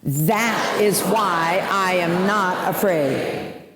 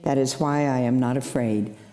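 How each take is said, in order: First: It is said at a louder volume. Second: It is said at normal, softer volume.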